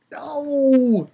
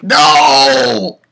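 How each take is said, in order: First: High, thin wailing no; dismayed wail. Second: High, loud drawn-out no; dismayed shout. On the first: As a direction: wail a long, despairing no, not shouted. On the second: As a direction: bellow a long protest at the ending. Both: Retold or imitated. Reenacts reaction to cliffhanger ending.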